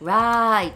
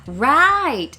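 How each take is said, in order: First: The pitch stays flat and dull. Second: The pitch rises at the end. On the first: The speaker calls it wrong. "let's not say like, right, I see, because it sounds so boring" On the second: The speaker calls it right. "let's go up the sound at the end and go"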